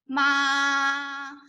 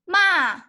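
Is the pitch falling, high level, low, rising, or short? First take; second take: high level; falling. First: The pitch stays high and level. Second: The pitch falls sharply from high. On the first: "this is the first tone" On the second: "the fourth tone is going down"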